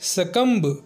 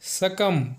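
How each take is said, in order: First: The b sound is pronounced. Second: The b sound is silent. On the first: The speaker calls it wrong. "कुछ लोग इसे सकम्ब pronounce करते हैं, जो कि गलत है" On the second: The speaker calls it right. "इसको सकम पढ़ा जाना चाहिए"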